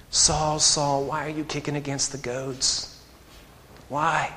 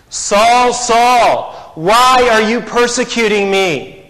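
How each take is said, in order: First: Soft, much quieter, plaintive plea; plaintive cry. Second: Loud, high, longing cry of the name; longing call. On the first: Jesus pleading with Saul, soft and plaintive. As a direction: ask it with a hurt, pleading softness. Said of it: "that plaintive cry of the Lord". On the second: Jesus calling out to Saul, loud and longing. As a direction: call him with aching longing. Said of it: "There's a longing there". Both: Acted.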